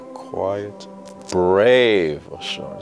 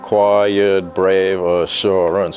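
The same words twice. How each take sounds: First: It is said expressively, matching each word's meaning. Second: It is said flat, without expression.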